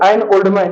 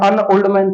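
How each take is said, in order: First: The article is a full, stressed 'an'. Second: The article is a short, reduced 'un'. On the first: Emphasis is put on the noun. "Noun के ऊपर ... दबाव डाल रहा है" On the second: The noun is mentioned neutrally, without emphasis. "इसका उच्चारण अन कर दिया, ... तो सामान्य स्थिति है"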